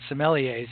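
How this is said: The word is said with an international pronunciation. This is how people elsewhere say it. "as they're called uh, in the rest of the world"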